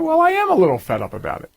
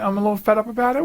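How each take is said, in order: First: Higher and fast, owning the annoyance; a little fed up. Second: Said in the usual way. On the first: Real, not acted. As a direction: admit it, clearly irritated. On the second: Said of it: "do I sound like I'm get".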